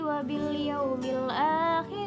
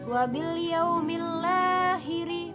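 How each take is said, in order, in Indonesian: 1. Kata-katanya dibaca terpisah, tidak disambung. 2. Kata-katanya dibaca disambung menjadi satu rangkaian.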